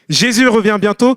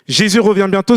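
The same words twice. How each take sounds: First: It is said in a joyful, bright tone. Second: It is said in a sad, gloomy tone. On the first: The return is joyful news. "C'est une nouvelle réjouissante" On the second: The return is saddening news. "C'est une nouvelle un peu négative"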